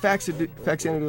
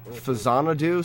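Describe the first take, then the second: First: The second consonant is a ks sound. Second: The second consonant is a z sound. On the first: The speaker calls it right. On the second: The speaker calls it wrong.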